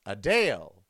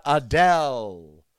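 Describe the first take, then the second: First: Adele said as uh-DALE; long-A pronunciation. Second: Adele drawn out as uh-DELL; slow Adele ending like bell; short-E pronunciation. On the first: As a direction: lower Adele rhyming with pale. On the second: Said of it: "It's not [name]". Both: Shown as a demonstration.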